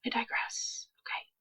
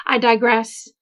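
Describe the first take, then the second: First: Soft unvoiced whisper. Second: Said in the usual way. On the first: Real, not acted. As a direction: breathe it out as a whisper. Aside repeated, second take whispered.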